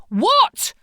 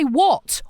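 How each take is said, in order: First: Much higher, louder exasperated rising What?; husband baffled and annoyed, sharply rising What?; frustrated what. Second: Frustrated what. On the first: Husband cut off mid-request, exasperated high What?. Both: Retold or imitated. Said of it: "he'd get really frustrated with me".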